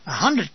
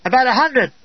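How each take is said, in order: First: Incredulous echo. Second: Said in the usual way. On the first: Retold or imitated. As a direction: echo hundred in disbelief.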